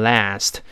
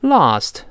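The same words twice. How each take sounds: First: Last with a flat "a" as in cat; change the "ah" in last to a front "a"; American-style last. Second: Last with a broad "ah" vowel; non-American "last". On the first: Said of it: "由啊变成哎". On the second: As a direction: say last as "lahst". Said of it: "美音当然读成last". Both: Shown as a demonstration.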